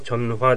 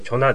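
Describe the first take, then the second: First: Said slowly with the middle h sound kept. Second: Said quickly with the middle h sound dropped. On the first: "ゆっくり言うとチョンファー" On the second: "早く言うとチョナ"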